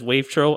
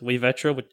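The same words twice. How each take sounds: First: The stress falls on another syllable. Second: The stress falls on the 've' syllable. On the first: This is how most people say it. "after seeing numerous people just say it as wavetro" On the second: This is the originally intended pronunciation. "I originally had my username, like, pronounced as wavetro"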